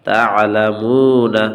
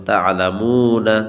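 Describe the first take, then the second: First: তা'লামুনা sung slowly, louder; recited madd. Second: তা'লামুনা with one alif length, final na spoken; short madd. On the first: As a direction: chant তা'লামুনা with a held vowel. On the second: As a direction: keep তা'লামুনা short and flowing. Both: Shown as a demonstration. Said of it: "নুনের জবর উচ্চারণ হবে".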